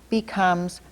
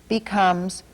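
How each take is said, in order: Both takes have the same delivery.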